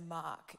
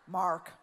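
First: It is said with an Australian accent. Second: It is said with an American accent.

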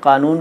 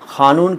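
First: The word starts with a plain k sound. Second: The word starts with an aspirated kh sound. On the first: "Hyderabad में क का उच्चारण ख के तौर पर होता है" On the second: "कानून को खानून क्यों बोलते हैं"

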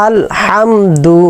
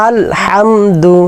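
Both takes have the same delivery.

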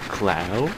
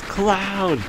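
First: It is asked with a rising pitch. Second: It is exclaimed with a falling pitch. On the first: It is a question. The speaker calls it wrong. "but not a question mark" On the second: It is a statement of surprise. The speaker calls it right. "they had explanation points"

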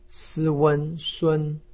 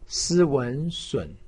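First: The pitch stays high and level. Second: The pitch dips low, then rises. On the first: "一声" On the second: "三声"

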